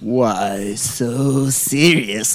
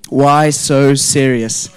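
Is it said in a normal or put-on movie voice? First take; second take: put-on; normal. First: It is said imitating the Dark Knight film. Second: It is said in the speaker's normal voice.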